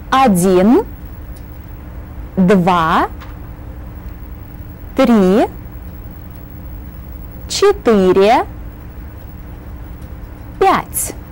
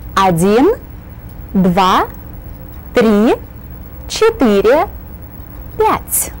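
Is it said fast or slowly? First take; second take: slowly; fast. First: The numbers are counted at a slower pace. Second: The numbers are counted at a faster pace.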